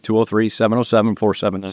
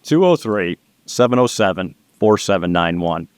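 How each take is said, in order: First: The number is said fast. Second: The number is said slowly.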